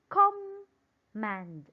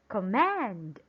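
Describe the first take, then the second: First: The stress is on the first syllable. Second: The stress is on the second syllable. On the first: The speaker calls it wrong. "Let's try to put it on the first syllable and let's pronounce it command" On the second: The speaker calls it right. "Let's try it on the second one"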